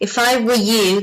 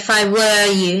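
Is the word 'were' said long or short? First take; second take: short; long. First: The word 'were' is short and reduced. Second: The word 'were' is long and fully pronounced. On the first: The speaker calls it right. "you actually pronounce it in a very short way" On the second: The speaker calls it wrong. "Not if I were you, no"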